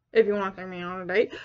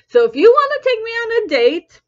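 First: Low, quick, soft repeat; hushed throwaway aside, low and rapid; muttered aside. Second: High, lifted date invitation; raised invitation. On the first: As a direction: drop it to a fast murmur. Same words as muttered aside. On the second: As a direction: pitch it up, announcing the offer. Date invitation, first take raised. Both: Real, not acted.

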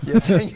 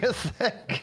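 First: Mocking echo. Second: High, laughing repeat; laughing echo. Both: Real, not acted.

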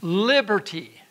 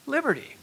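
First: "Liberty" set apart with a falling tune; stressed repeat. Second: Raised repeat. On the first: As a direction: land firmly on "Liberty". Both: Shown as a demonstration. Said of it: "I'm gonna repeat that again".

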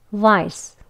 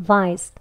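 First: "vice" ending in a light s that leaks out; 가볍게 새는 스 "vice". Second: "vice" ending in a heavier, pushed s; 무겁게 밀어내는 스 "vice"; heavy s. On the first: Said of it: "vice는 가볍게 나옵니다". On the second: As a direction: end "vice" with a thick pushed-out s. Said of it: "조금 무겁게 나오는 스가 들어간". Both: Shown as a demonstration.

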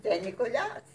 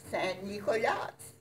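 First: "Saint Nicolas" repeated higher in French, nasal "Saint", rising on "Nicolas"; French pronunciation. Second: "Saint Nicolas" said the French way, nasal "Saint", "Nicolas" with stress on the last syllable; French pronunciation. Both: Shown as a demonstration. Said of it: "he was pronounced Saint Nicolas".

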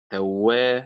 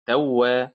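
First: Slow توا, stressed on وا; stress on second syllable. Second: Slow توا, stressed on تو; wrong stress, first syllable. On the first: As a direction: draw out توا, weight on وا. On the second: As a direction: put the weight on تو in توا. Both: Shown as a demonstration. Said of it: "وليست توا".

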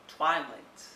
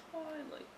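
First: Said in the usual way. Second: High soft echo. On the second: Shown as a demonstration. Repeats the book title.

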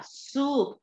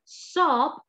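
First: "soup" drawn out with an OO vowel. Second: "Soap" drawn out with a long O. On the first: Teacher correcting the word for sopa, "soup" with U. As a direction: say "soup" slowly with a long U. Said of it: "soup con U". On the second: Teacher explaining that it means jabón, "Soap" with O. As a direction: stretch "Soap" slowly on an O vowel. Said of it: "con O es jabón". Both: Shown as a demonstration.

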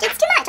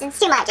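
First: Silly, very high repeat; sudden leap into a squeaky voice; high squeal. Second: Said in the usual way. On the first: Real, not acted. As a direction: squeak it out in mock overwhelm. Same words again, jumping high.

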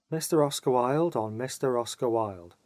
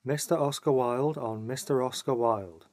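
Both takes have the same delivery.

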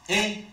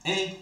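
First: E said as closed é, lips spread; closed é sound. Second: E said as open è, mouth wider; open è sound. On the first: Teacher showing the é with accent aigu, closed. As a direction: say E as a bright closed é. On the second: Teacher showing the è with accent grave, open. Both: Shown as a demonstration. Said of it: "on la prononce".

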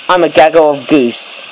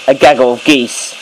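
First: "goose" said as the singular, rhyming with loose; "gaggle of goose" with the wrong plural. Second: "geese" said as the plural with a long ee; "gaggle of geese" with the proper plural; correct plural geese. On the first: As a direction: deliberately say "goose" for the flock. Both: Shown as a demonstration. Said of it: "Or maybe I should have said".

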